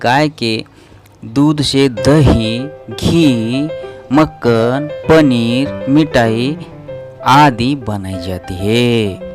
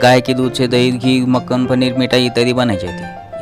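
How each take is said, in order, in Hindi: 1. हर सूचीबद्ध चीज़ के बाद एक छोटा विराम है। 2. सूची बिना रुके एक के बाद एक चलती है। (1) "थोड़ा बहुत हमें वहाँ रुकना है" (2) "ऐसा पढ़ना गलत होता है"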